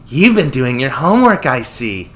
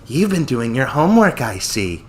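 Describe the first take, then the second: First: It is said in a lively voice. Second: It is said in a bored, tired voice.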